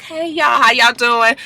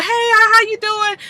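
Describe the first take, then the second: First: Lightly voiced, slightly higher casual hello; a touch of a sly girl saying hi; Brooke's greeting. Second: Much higher, sing-song hello; high girly voice for the other woman; Chanel's greeting. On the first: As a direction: greet them with fake friendliness. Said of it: "Okay, Brooke". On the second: Retold or imitated. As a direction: greet them high and sweet. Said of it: "Okay, Chanel".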